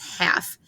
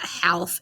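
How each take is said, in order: First: The L sound is silent in the word. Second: The L sound is pronounced in the word. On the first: The speaker calls it right. "it's half. We don't say the L, it's silent" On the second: The speaker calls it wrong. "it's not half"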